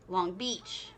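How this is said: The stress falls on the second word. The speaker calls it wrong. "the second part of word, uh, two word phrases... He always says it weirdly"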